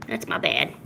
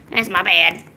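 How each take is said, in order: First: Whispered apology. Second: Said in the usual way. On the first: Real, not acted. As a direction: whisper the sorry. Apologising to cat.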